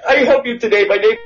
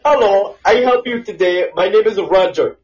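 First: Higher, choppier call-center drone; mock call-center agent, higher. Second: Mock call-center agent. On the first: Correcting a friend's impression with a higher robotic agent voice. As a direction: redo the agent's line higher and more robotic. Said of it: "no, no, it's more like".

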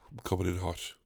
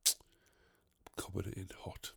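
First: Quiet. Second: Soft, slow whisper of "I'm coming in hot"; hushed secret warning. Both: Shown as a demonstration.

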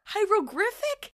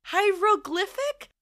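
First: "Hieroglyphic" as high-ro-griffic, rising; high, slow, doubtful "Hieroglyphic" with R for L; questioning mispronunciation. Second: "Hieroglyphic" as high-ro-gliffic, slowly rising; high, slow, doubtful "Hieroglyphic" with a clear L; questioning repeat. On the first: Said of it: "I could not pronounce hieroglyphics". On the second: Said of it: "she's like". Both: Retold or imitated.

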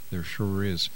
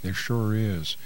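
No difference in how they are said.

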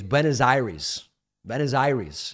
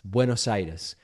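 First: Buenos Aires as BWEN-uhz AIR-eez; mangled American pronunciation. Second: Buenos Aires as BWE-nos EYE-des, tapped r; native Spanish pronunciation. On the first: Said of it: "in these mangled American ways". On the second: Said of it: "I could pronounce it in these mangled American ways". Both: Shown as a demonstration.

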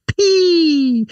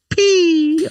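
First: "S P" much higher and louder, squeaked; a comic high-pitched "S P"; squeaky high P. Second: "the S P" much higher, louder and slow; squeaky high P. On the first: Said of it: "Do I have to say the P like that". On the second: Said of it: "say the P like that all the time". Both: Shown as a demonstration.

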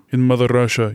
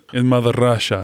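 First: Put-on Russian accent. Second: Put-on drunk Russian accent. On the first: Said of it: "[name]'s Russian accents". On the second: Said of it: "It's a drunk Russian".

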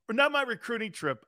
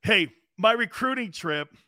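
First: Not pushed up higher as a self-correction; stress on not. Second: Said in the usual way. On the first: Real, not acted. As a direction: correct yourself, leaning on not.

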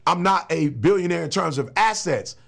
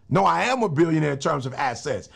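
First: "not" stressed in a rejected claim. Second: "am" stressed in firm correction. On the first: Retold or imitated. Speaker voices the denial he refuses to say, stress on "not". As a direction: lean on "not", as if quoting a denial. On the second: Real, not acted. Speaker corrects the claim about his assets, stress on "am". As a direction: lean on "am" to overturn the denial.

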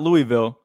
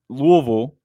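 First: Louisville spelled out as LOO-ee-vil; Louisville as three clear syllables, LOO-ee-vil; rejected pronunciation. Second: Louisville run together as LOO-uh-vul; local pronunciation. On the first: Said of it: "not, not Louisville". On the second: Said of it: "pronounced Louisville". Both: Shown as a demonstration.

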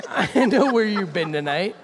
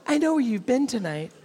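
First: Loud, stress on know; menacing hero line. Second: Higher, falling stress on know; higher repeat. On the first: Host voicing the hero's accusation, loud with a laugh. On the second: Host repeating the hero's line, higher and knowing. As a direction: say it again, higher and more knowing. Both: Acted. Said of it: "I'm gonna read it in his voice".

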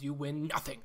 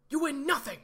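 First: Said in the usual way. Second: High, loud mock movie line; hammed-up movie quote, much higher and louder. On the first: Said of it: "got that reference". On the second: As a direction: blast it like the famous film scene. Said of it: "Shout out to everyone who got that reference".

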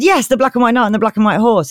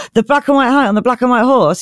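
First: Higher-pitched emphatic confirmation; lightly hammed-up knightly pride; proud knight. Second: Higher-pitched mock amazement; hammed-up awed question; astonished pixie. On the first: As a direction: confirm it with mock grandeur. Knight confirms to awed pixie. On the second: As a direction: repeat it in starstruck disbelief.

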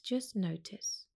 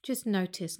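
First: Just notice, softer and slower, letting it fade; slow fading meditation cue; softer, slower repeat. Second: Said in the usual way. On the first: Acted. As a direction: let the words sink away gently.

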